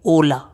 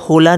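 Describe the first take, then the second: First: The word begins directly with the vowel o. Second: The word begins with an audible h sound. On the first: The speaker calls it right. "But एच silent है" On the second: The speaker calls it wrong. "होला नहीं"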